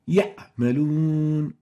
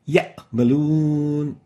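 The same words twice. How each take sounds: First: The ayn sound is clipped short. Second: The ayn sound is clipped short.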